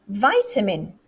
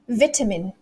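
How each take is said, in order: First: It is said with an American accent. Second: It is said with a British accent. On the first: "But the Americans" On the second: "let's do the British way first"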